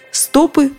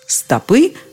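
First: The stress is on the first syllable. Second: The stress is on the last syllable. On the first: It means stacks of paper. "ударение во множественном числе с корня не уходит" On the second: It means human feet. "ударение во множественном числе всегда на окончании"

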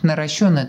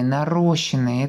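First: The stress falls on the third syllable. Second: The stress falls on the second syllable. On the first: The speaker calls it right. "они должны быть наращенные, тут ударение другое" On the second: The speaker calls it wrong. "мы очень часто можем услышать «нарощенные»"

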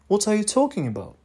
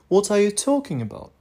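The two takes are said the same way.

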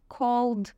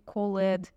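First: The ending is said without an extra syllable. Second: The ending is said as an extra syllable. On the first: The speaker calls it right. "произношения правильных глаголов" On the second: The speaker calls it wrong. "а не called"

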